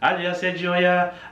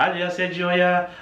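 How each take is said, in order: First: The phrase is adapted to Portuguese-like sounds. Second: The phrase is adapted to Portuguese-like sounds.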